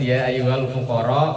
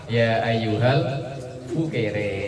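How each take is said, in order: First: The last word ends with an open 'a' vowel. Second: The last word ends with an 'e' vowel.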